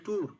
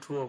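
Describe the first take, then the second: First: The vowel is one short, flat sound. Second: The vowel glides from oo toward uh. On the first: This is how local speakers say it. The speaker calls it wrong. "আমরা বাংলায় বলি কি সুন্দর করে উচ্চারণ করি" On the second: This is how native speakers say it. The speaker calls it right. "আসলে ট্যুর বলতেছে না, ট্রুয়ার বলতেছে"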